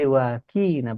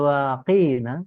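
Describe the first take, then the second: First: The middle consonant is a plain front k. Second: The middle consonant is a deep back-throat q. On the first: Make us. The speaker calls it wrong. "menjadi waqina pakai kaf" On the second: Protect us. The speaker calls it right. "Yang tadinya waqina ya, jauhkan kami"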